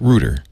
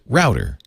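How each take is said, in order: First: The word is said the British way. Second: The word is said the Australian way. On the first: No rude slang meaning exists there. "In Britain, where the connotation doesn't exist, they pronounce it rooter" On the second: This avoids a rude slang meaning. "in Australia, they pronounce it router"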